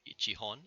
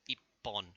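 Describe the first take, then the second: First: It is said as full ichi plus hon. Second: It is said contracted with a doubled p. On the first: The speaker calls it wrong. "it's not" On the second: The speaker calls it right. "it's ippon"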